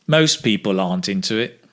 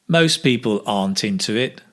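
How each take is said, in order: Both takes have the same delivery.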